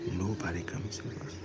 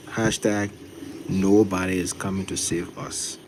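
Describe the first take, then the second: First: Softer, hushed like a secret; whisper. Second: Drawn-out slogan; slow, deliberate. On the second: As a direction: say each word slowly. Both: Shown as a demonstration. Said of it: "you gotta say it slow".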